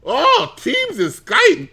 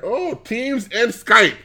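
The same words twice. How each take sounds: First: Very high, slow falsetto marveling; mock ecstatic delight. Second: Drawn-out, high-pitched mock wonder; mock delight. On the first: Gushing over Teams and Skype in admin center, mock ecstasy. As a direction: coo it way up high, stretching each word. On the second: Finding Teams and Skype in the admin center, mock delight. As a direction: savor a pretend discovery, slowly and high.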